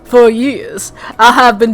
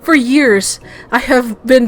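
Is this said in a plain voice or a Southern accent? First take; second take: Southern; plain. First: It is said in a put-on Southern accent. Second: It is said in the speaker's ordinary accent. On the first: The speaker calls it right. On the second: The speaker calls it wrong.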